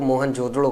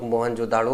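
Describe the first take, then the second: First: मोहनजोदड़ो with a short vowel before ड़ो; variant pronunciation. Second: मोहनजोदाड़ो with a long "daa" before ड़ो; long-vowel variant. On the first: Teacher showing students one accepted name, variant pronunciation. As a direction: say मोहनजोदड़ो, keeping द short, no long "daa". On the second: Teacher showing students the other accepted name, long-vowel variant. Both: Shown as a demonstration. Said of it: "जो आपको सही लगे वो आप कहिए".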